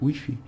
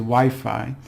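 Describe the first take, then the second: First: It is pronounced as read, French style. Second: It has the usual English pronunciation. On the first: "they pronounce it like they they read it" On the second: "we we say Wi-Fi"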